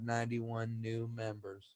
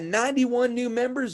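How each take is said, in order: First: It is said in a flat, dull monotone. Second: It is said with lively, upbeat energy. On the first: The news sounds boring and unengaging. The speaker calls it wrong. "like Ben Stein, right?" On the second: The news sounds exciting and engaging. The speaker calls it right. "Have fun in your meeting"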